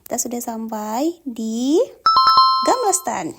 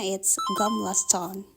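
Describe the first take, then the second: First: Excited announcement. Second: 'Gamla stan' said slowly the Swedish way; Swedish pronunciation. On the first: Real, not acted. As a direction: call out the place name with excitement. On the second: Shown as a demonstration. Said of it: "Kalau Swedish pronounce-nya".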